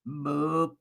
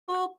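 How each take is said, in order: First: It is said in a low, deep voice. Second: It is said in a medium-pitched voice.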